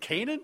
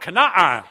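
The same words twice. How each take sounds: First: Only one A sound is heard in the word. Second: Two separate A sounds are heard in the word. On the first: This is the familiar way the name is said. "You mean Canaan?" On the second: This is how people in Israel say the name.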